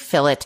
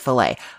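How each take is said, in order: First: The word uses the British pronunciation. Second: The word uses a non-British pronunciation. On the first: "I say fillet. It is because I'm Canadian and we use the British pronunciation" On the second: "people got really upset that I don't say fillet"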